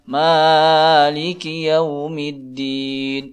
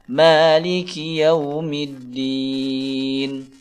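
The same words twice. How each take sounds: First: The first vowel is stretched out too long. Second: The first vowel is held only briefly. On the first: The speaker calls it wrong. "jangan dibaca terlalu panjang ... Ini tidak benar menurut ilmu tajwid" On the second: The speaker calls it right. "Yang benar adalah"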